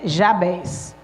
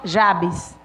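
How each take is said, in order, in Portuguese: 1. A tônica está na última sílaba. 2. A tônica está na primeira sílaba. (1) "a pronúncia mais correta é Jabés" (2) "Alguns chamam Jabes"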